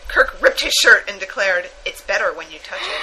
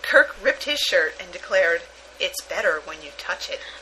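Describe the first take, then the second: First: It is read at a normal pace. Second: It is read slowly.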